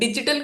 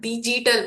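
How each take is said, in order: First: The g sound is short and crisp. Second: The g sound is dragged and drawn out. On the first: The speaker calls it right. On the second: The speaker calls it wrong.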